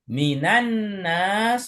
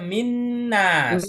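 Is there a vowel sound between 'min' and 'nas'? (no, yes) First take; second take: yes; no. First: An 'a' vowel joins the two words. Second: The words run together with no vowel between. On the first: The article is kept in the phrase. The speaker calls it right. "kalau salah satunya dikasih harokat" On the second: The article disappears from the phrase. The speaker calls it wrong. "kalaupun dipaksakan jadinya minnas"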